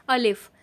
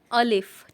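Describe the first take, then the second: First: अलिफ repeated slowly and clearly; letter name alif. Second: अलिफ said clearly as a-lif, stressing the first vowel; letter name alif. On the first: Urdu teacher repeating the letter for beginners, careful pronunciation. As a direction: say अलिफ for learners to copy. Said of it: "इसे पढ़ते हैं अलिफ". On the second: Teacher modeling the letter name for viewers, clearly enunciated. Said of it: "इस तरह के डंडे को बोलते हैं अलिफ". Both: Shown as a demonstration.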